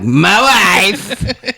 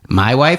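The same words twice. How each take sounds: First: It is said in a Borat impression. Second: It is said in a normal questioning voice.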